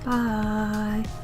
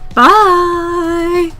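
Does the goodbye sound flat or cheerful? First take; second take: flat; cheerful. First: It sounds flat and low in energy. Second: It sounds cheerful and bright.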